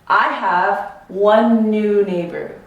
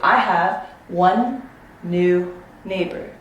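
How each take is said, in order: First: The words run together without a break. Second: The words are separated by clear gaps. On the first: The speaker calls it right. "You hear how it's connected?" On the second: The speaker calls it wrong. "If I separated the two"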